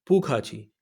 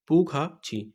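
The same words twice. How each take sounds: First: Said in the usual way. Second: "پو کھا چھی" with a pause before "چھی"; split-syllable drill. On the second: Shown as a demonstration. Teacher drills learners on "you are welcome", split-syllable drill. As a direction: say "پو کھا", break, then "چھی" on its own.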